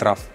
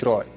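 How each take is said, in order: First: The word gets a Russian-style pronunciation. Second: The word gets an English-style pronunciation. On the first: This is how people in Russia usually say it. The speaker calls it wrong. "В России говорят RAW" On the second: This is the proper way to say it. The speaker calls it right. "правильно говорить RAW"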